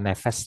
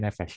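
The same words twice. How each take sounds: First: The word ends with a plain s sound. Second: The word ends with an sh sound. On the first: The speaker calls it wrong. "Bukan nefes" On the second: The speaker calls it right. "tapi nefes ya. Beda titik itu beda bunyi ya"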